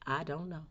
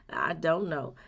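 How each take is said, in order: First: Softly, a humble "I don't know"; quiet admission. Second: Said in the usual way. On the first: Shown as a demonstration. To the viewer, showing how to admit not knowing, said softly. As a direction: give in and say it softly. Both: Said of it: "just gotta admit it and say".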